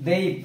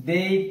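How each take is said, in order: Both takes have the same delivery.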